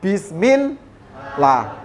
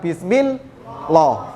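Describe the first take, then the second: First: The L is pronounced thin and light. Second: The L is pronounced heavy and full. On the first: The speaker calls it right. "dibaca tipis atau la" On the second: The speaker calls it wrong.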